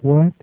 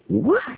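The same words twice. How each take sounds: First: The word is said mildly, without exclamation. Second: The word is said as a forceful exclamation. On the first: The speaker is merely asking, without challenge. The speaker calls it wrong. "Paul didn't say that like this" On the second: The speaker is indignant and challenging. The speaker calls it right. "With an exclamation behind that"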